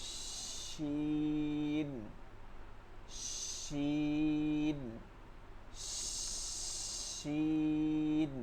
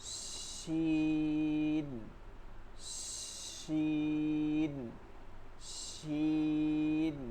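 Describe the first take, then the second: Both takes have the same delivery.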